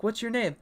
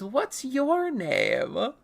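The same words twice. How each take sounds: First: Brief, higher-pitched question; quick acted question. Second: Very slow, high, drawn-out question; acted question. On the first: Showing how a child imagined conversations, quick question. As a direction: ask it briskly in a raised pitch. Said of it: "I thought people talked as a child". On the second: Characters meeting for the first time, exaggerated question. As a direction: stretch every word, pitched up. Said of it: "He goes".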